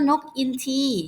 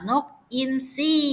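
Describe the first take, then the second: First: The second syllable starts with a t sound. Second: The second syllable starts with an s sound. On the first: The speaker calls it wrong. "เราจะไม่พูดว่านกอินทีนะคะ" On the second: The speaker calls it right. "แต่เราจะบอกว่านกอินทรี"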